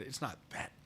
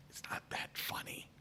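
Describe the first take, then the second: First: Said in the usual way. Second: Whispered aside, almost voiceless. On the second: Real, not acted. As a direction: breathe it under your breath.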